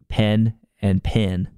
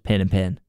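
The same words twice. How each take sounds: First: Pen and pin have clearly different vowels. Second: Pen and pin have the same vowel.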